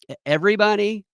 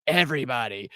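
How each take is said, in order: First: Incredulous. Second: Said in the usual way. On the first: Retold or imitated. Incredulous question.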